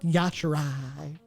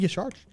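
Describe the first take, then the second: First: An extra vowel comes between the R and J. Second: The R runs straight into the final J. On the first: The speaker calls it wrong. "It's not Yasharai" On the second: The speaker calls it right. "But it's clearly Yasharj"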